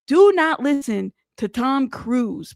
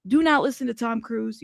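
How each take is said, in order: First: Slow, stretched DO NOT, then measured words; insistent warning with "Do" held long; emphatic warning. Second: Said in the usual way. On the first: Real, not acted. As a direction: draw out "Do not listen" word by word.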